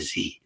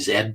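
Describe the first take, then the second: First: The letter name is said the American way. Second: The letter name is said the Canadian way. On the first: "You guys say Z" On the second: "I say Z because I'm a Canadian"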